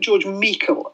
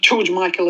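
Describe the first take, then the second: First: The surname is said as a Scottish surname. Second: The surname sounds like the common name Michael. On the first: The speaker calls it right. "is probably the correct pronunciation. It's a Scottish surname" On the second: The speaker calls it wrong. "not George Michael as in you would think"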